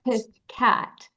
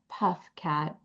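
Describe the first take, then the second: First: The first part is said as one word, 'piff'. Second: The first part is said as one word, 'puff'. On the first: The speaker calls it right. "but Piff Cat" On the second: The speaker calls it wrong. "not Puff Cat"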